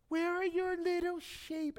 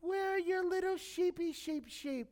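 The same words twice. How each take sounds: First: High, mocking taunt; high sneering jab at the kid brother; sarcastic ridicule. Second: High, mocking sing-song taunt; mocking big brother, high and sneering; sarcastic ridicule. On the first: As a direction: tease him like a scornful big brother. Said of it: "now I was good at ridiculing". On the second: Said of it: "you can see the ridicule, the sarcasm".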